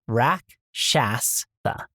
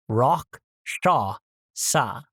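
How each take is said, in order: First: The name is said in the plain, familiar way. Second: The name is said in a fancier-sounding way. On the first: The speaker calls it wrong. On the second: The speaker calls it right. "Correct. / which sounds so much fancier"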